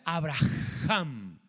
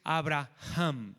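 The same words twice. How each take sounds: First: The name is drawn out with a breathy H. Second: The name is said at normal length.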